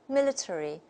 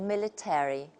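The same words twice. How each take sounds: First: It is said in a British accent. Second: It is said in an American accent. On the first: "the first version takes the British model" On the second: "the second version takes the American model"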